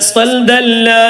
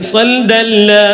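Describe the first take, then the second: Both takes have the same delivery.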